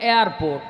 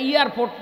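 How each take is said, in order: First: The first part sounds like 'air'. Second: The first part sounds like 'ear'. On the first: The speaker calls it right. "ওইটা এয়ারপোর্ট। ... এয়ার মানে হলো বাতাস" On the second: The speaker calls it wrong. "ওইটা এয়ারপোর্ট না"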